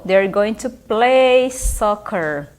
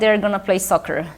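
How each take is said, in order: First: 'Going to' is pronounced in full. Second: 'Going to' is reduced to 'gonna'.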